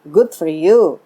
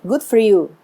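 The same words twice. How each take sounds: First: It sounds dismissive and sarcastic. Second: It sounds warm and sincerely pleased. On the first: The speaker is glad the other person is leaving. "bisa juga artinya negatif" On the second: The speaker is genuinely happy for the other person. "oh bagus deh, kamu dapat pekerjaan yang lebih baik"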